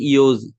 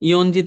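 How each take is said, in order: First: It is said with no n before ji. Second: It is said with an n before ji. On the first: The speaker calls it right. "বলে কি ইয়োজি" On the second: The speaker calls it wrong. "ইয়নজি তোর বলে না"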